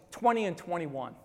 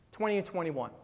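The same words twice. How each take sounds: The two takes are said the same way.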